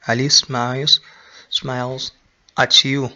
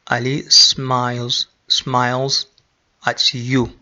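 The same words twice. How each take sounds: The two takes are said the same way.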